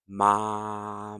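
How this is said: The voice is at a low pitch. "So that register is lower than mine"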